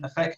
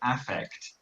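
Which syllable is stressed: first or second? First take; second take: second; first. First: The stress is on the second syllable. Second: The stress is on the first syllable. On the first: The speaker calls it wrong. "when I read the book, I was thinking affect" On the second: The speaker calls it right. "the stress is on the first syllable"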